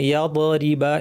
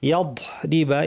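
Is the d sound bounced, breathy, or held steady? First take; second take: bounced; breathy. First: The d sound bounces with an echo. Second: Air is released after the d sound. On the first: "অনেকে কলকলা করে ফেলেন" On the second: "অনেকে এখানে বদ থেকে বাতাস ছেড়ে দেন"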